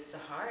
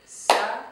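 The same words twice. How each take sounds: First: Said in the usual way. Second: SAHAR split into two even beats, Sa - har; syllable by syllable. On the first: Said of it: "I'm going to use my name". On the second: Shown as a demonstration. Teacher translating a name into clapping, SAHAR in two separate beats. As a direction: clap out SAHAR with a gap between syllables. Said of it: "translated into clapping".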